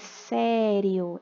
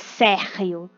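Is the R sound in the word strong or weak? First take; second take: weak; strong. First: The R is a weak, tapped sound. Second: The R is a strong, rough sound. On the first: The speaker calls it right. "é um som fraco" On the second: The speaker calls it wrong. "não é sério"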